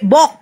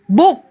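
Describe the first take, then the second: First: The vowel is an 'o' sound. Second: The vowel is an 'oo' sound. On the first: The speaker calls it wrong. "Apakah artis berarti dibaca B, bok, B O O K?" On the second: The speaker calls it right. "Coba dia suruh baca bahasa Inggris"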